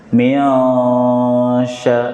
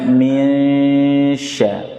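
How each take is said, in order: First: The jaw opens, giving an 'a' sound. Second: The mid tongue rises toward the 'sh' position. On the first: The speaker calls it wrong. "bukan mia, rahang dibuka. Miasya, ini salah" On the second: The speaker calls it right. "dekatkan lagi"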